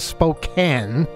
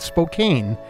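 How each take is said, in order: First: The last syllable has a short A, like can. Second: The last syllable has a long A, like cane. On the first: The speaker calls it right. "instead of Spokane" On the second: The speaker calls it wrong. "I made the mistake. And I admit it was a mistake of pronouncing it Spokane"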